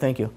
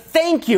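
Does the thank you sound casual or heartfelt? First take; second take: casual; heartfelt. First: It is said casually, in passing. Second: It is said with deep, sincere feeling.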